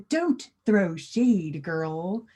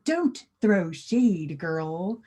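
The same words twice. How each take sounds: First: It is said in a careful, formal way. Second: It is said in a careful, formal way.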